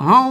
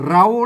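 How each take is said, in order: First: The word begins with an h sound. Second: The word begins with an r sound. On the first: This is the Northern Thai reading. "คนเมืองเปิ้นอ่านว่าเฮา" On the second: This is the central Thai reading. "คนไทยเปิ้นเปิ้นฮ้องว่าเรา"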